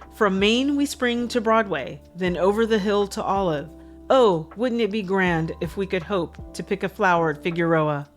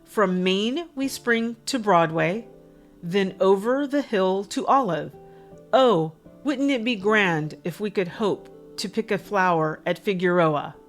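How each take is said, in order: First: It is said at a faster pace. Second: It is said at a slower pace.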